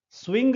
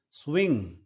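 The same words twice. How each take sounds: First: स्विंग with a sounded g at the end; wrong hard g. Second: स्विंग ending on a nasal ng, no g; silent g. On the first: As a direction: release a hard g after the ng in स्विंग. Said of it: "स्विंग नहीं है ये, ग नहीं है ये". (स्विंग के अंत में ग बोलकर, गलत उच्चारण) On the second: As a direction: let स्विंग close on ng without releasing g. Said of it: "ग को नहीं बोला जा रहा है". (स्विंग, आख़िर का ग बिना बोले) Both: Shown as a demonstration.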